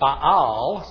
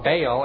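First: The name is said with a Hebrew pronunciation. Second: The name is said with an English pronunciation. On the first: "pronounced in Hebrew" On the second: "as we usually do in English"

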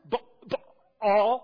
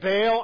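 First: It is said with a stop between the vowels. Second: It is said smoothly with no stop inside. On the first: This is how it is said in Hebrew. "You gotta like stop there" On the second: This is the common way people say it. "most people say Baal"

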